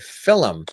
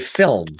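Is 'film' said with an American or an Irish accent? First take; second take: Irish; American. First: The word is said with an Irish accent. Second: The word is said with an American accent. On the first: "my father, the the Irish side of the family, ... has has always said film" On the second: "in the States, ... they say film"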